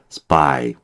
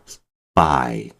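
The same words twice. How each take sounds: First: The p is tense, with no puff of air. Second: The p is released with a puff of air. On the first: The speaker calls it right. "된 소리가 돼버려요" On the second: The speaker calls it wrong. "스파이가 아니라"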